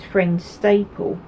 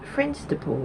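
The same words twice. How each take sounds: First: The stress is on the second syllable. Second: The stress is on the first syllable. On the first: This is how the local people say it. The speaker calls it right. "It's not. It's Friendstaple" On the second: This is how the speaker thought it was said. The speaker calls it wrong. "I thought I lived near a road called Friendstaple Road"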